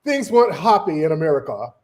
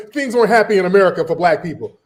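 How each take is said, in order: First: Lower, mocking British accent; bad British accent. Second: Said in the usual way. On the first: Mimicking the British critic about America, mock British accent. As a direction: put on a badly faked British accent. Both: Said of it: "That's a shit British accent".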